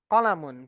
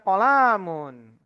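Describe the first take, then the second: First: The vowels in the word are kept short. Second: A vowel in the word is held long. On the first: The speaker calls it right. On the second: The speaker calls it wrong. "sering bacanya kolamun. Salah ya"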